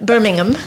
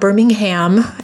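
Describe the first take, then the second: First: Birmingham is pronounced in a non-American way. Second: Birmingham is pronounced the American way. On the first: The speaker calls it right. "It's Birmingham" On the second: The speaker calls it wrong. "It's not Birmingham, as we Americans are wont to say"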